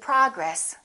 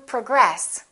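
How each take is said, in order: First: The stress is on the first syllable. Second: The stress is on the second syllable. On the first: It is a noun. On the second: It is a verb.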